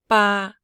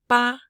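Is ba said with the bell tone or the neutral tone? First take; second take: neutral; bell. First: It is said on a level mid pitch. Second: It is said on the ringing bell-tone pitch. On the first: "A neutral tone is the re" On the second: "split the bell tone"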